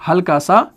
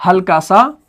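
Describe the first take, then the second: No difference in how they are said.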